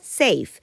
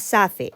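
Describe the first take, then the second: First: The word is said with one syllable. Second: The word is said with two syllables. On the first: The speaker calls it right. "eso se pronuncia safe ... con un golpe de voz, una sílaba" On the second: The speaker calls it wrong. "eso no se pronuncia safe"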